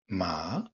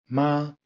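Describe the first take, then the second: First: The pitch rises from mid to high. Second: The pitch stays high and level. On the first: "Deuxième ton, montant" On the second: "Premier ton, haut et tenu"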